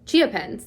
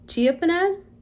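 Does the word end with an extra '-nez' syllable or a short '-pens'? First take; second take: short '-pens'; extra '-nez'. First: The word ends shortly in '-pens'. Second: The word ends with an extra '-nez' syllable. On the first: The speaker calls it right. "there we go" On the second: The speaker calls it wrong. "I'm gonna say it wrong"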